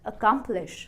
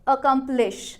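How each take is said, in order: First: The middle syllable is stressed. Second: No syllable is stressed; it sounds flat.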